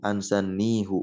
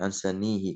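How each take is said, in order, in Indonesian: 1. Kata itu berakhir dengan bunyi 'hu'. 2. Kata itu berakhir dengan bunyi 'hi'. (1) "dibaca seperti asalnya hu"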